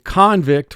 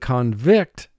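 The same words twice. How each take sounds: First: The stress is on the first syllable. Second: The stress is on the second syllable. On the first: It names a person in prison. "where it's a noun referring to someone in prison, the emphasis goes on the first syllable" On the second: It means to find someone guilty. "the emphasis goes on the second syllable"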